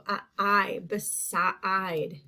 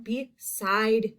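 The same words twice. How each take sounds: First: Beside broken up with the I drawn out; sounded-out long I. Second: Said in the usual way. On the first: Shown as a demonstration. Teacher shows the second syllable, beside sounded out. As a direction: isolate the I, then stretch it inside beside. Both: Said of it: "That is in that second part".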